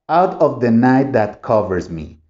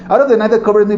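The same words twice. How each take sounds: First: It is read slowly with a steady rhythm. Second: It is read quickly with words run together. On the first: The speaker calls it right. "así es como lo debes de practicar para que entiendas lo que es el ritmo" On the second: The speaker calls it wrong. "Si yo lo pronuncio rápido, tampoco se entiende"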